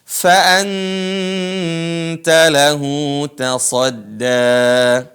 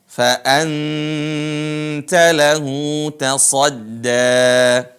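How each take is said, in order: Both takes have the same delivery.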